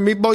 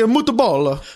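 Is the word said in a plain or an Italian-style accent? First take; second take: plain; Italian-style. First: The word is said in a plain American accent. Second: The word is said in an exaggerated Italian accent. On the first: "you don't say meatball" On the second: "that's how they say it in the old country"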